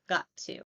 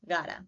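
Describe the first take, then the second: First: Both words are pronounced fully and separately. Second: The two words are reduced and blended together.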